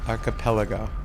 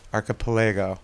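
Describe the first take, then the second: First: The main stress falls on the 'pel' syllable. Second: The main stress falls away from the 'pel' syllable. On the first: The speaker calls it right. "the emphasis is on the pel" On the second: The speaker calls it wrong. "how I was saying it"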